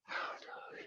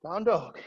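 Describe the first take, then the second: First: Fading to a whisper; barely voiced cue. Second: Said in the usual way. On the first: Shown as a demonstration. Repeated cues, fading.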